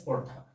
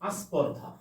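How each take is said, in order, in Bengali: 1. শব্দটি একটি ব্যঞ্জনগুচ্ছ দিয়ে শুরু হয়। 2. ব্যঞ্জনগুচ্ছের আগে একটি অতিরিক্ত স্বরধ্বনি যোগ করা হয়। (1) "এটা স্পর্ধা" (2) "এটাকে আমরা বললাম আস্পর্ধা"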